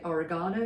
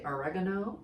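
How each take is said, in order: First: Oregano as "o-re-GAH-no"; British pronunciation. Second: Oregano as "o-REG-a-no"; American pronunciation. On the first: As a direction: stress the GA in oregano, British style. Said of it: "We say oregano". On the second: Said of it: "you say oregano". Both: Shown as a demonstration.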